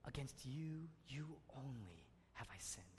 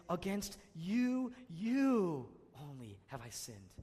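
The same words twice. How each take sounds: First: Hushed, fading to a whisper; whispered verse. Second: "you" drawn out slowly and louder; stress on you. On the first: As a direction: breathe it out as a broken confession. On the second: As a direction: lean slowly and firmly on "you". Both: Shown as a demonstration. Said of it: "place an emphasis on each word".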